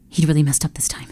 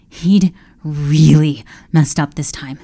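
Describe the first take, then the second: First: Hushed, fast dread; whispered dread. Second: Said in the usual way. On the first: A narrator's reading. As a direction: breathe it in panic.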